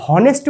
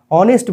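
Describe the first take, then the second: First: "হনেস্ট" with a sounded h before the o; pronounced H. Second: "অনেস্ট" starting straight on o; silent H. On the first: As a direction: wrongly voice the h in "হনেস্ট". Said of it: "not এইচ দিয়ে". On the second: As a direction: leave out the h in "অনেস্ট". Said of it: "অনেস্ট বলি". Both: Shown as a demonstration.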